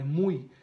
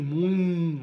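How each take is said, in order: First: "mui" cut short without an N hum; no final N. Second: "mui" held loudly with an N hum at the end; nasal N ending. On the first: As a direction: end "mui" on the i glide, no held N. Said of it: "mas não é, é mui". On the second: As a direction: let "mui" ring on into an N sound. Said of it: "tende a falar com som de N". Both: Shown as a demonstration.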